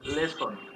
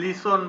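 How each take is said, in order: First: The first vowel sounds like 'eh'. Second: The first vowel sounds like 'ee'. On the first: The speaker calls it right. "লেসন এটার হচ্ছে লে, ল একার লে" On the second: The speaker calls it wrong. "এই যে লিসন বলো"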